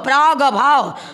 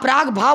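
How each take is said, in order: First: It is said with an a vowel before bhav. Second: It is said without the vowel before bhav. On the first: The speaker calls it right. "प्राग plus अभाव" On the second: The speaker calls it wrong. "आप प्राग भाव बोल रही हो"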